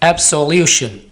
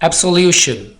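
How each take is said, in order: The two takes are said the same way.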